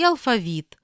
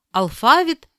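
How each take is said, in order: First: Алфавіт as alfa-VIT; last-syllable stress. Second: Алфавіт as al-FA-vit; middle-syllable stress. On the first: Teacher giving the other variant, final stress on алфавіт. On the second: Teacher reading double-stress words, middle stress on Алфавіт. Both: Shown as a demonstration. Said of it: "слова із подвійним наголосом".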